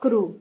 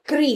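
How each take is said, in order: First: The syllable ends in an 'oo' vowel. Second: The syllable ends in an 'ee' vowel. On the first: The speaker calls it wrong. "ना कि क्रू" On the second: The speaker calls it right. "इसका जो sound होता है वो क्री है"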